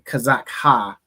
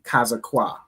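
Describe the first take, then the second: First: The final ha is said as a separate syllable. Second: The final ha is joined to the last letter. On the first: The speaker calls it wrong. "you wouldn't say" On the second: The speaker calls it right. "you'd say"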